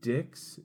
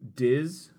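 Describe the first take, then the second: First: The name ends with a 'ks' sound. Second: The name ends with a 'z' sound. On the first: The speaker calls it wrong. "You could see how I could get dicks out of D-I-X" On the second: The speaker calls it right. "I guess it's a Z. It should be a Z"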